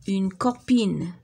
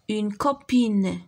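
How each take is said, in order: First: Slow clear repeat of copine. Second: Very slow, syllable by syllable; slow modelled word. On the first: Teacher repeating the word to pupils, slowly. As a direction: say it slowly once more. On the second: Teacher spelling out a word for kids, slowly. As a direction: stretch each sound out for pupils. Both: Shown as a demonstration.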